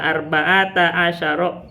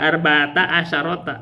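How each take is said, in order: First: Arba'ata asyara, the last word without ta. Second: Arba'ata asyarota, an extra ta on the end; asyarota with wrong ta. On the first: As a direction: end asyara on ro, no ta. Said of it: "Asyarohnya kan nggak pakai ta". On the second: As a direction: wrongly add ta after asyaro. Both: Shown as a demonstration.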